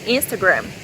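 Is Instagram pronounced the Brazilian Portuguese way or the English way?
English. Instagram is said with an English pronunciation. The speaker seems to be showing off. "fala muito certo"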